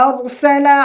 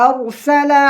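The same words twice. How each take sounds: Both takes have the same delivery.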